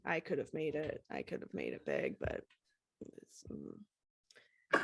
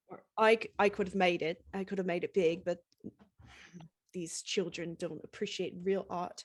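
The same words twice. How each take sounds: First: Low, soft grumble with a squint; lightly voiced grumpy rocker; grumpy squinting [name]. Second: Grumpy [name]. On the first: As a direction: mutter it like a bitter has-been. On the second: Acted.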